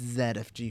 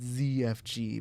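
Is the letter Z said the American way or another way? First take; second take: another way; American. First: The Z is said the non-American way. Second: The Z is said the American way. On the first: This is the real name. "but it's Z F G for real" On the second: This is how it is said in America. "here in America, it's Z F G"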